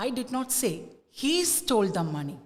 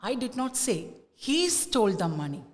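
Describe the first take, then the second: First: The stress falls on the word he. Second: The stress falls on the word he.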